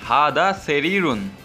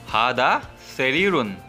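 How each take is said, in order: The two takes are said the same way.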